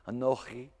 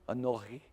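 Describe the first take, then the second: No difference in how they are said.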